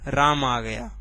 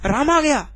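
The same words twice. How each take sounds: First: It is said in a plain, neutral statement tone. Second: It is said in a surprised, exclamatory tone. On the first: It is a simple statement of fact. "पहले वाले को कैसे बोल रहे थे" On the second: The speaker is astonished by the news. "आश्चर्य में इसको बोला है"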